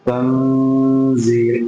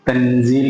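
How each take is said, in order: First: The n sound is hidden with a nasal hum. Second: The n sound is pronounced clearly and fully. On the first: The speaker calls it right. "മറച്ചു വെച്ച് ഓതണം" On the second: The speaker calls it wrong. "വ്യക്തമാക്കി ഓതണമെങ്കിൽ"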